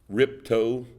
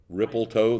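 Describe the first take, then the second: First: Only two syllables, the middle one dropped. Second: Three syllables, with an added L sound. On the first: "Let's make two syllables instead of the required three" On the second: "They had the L"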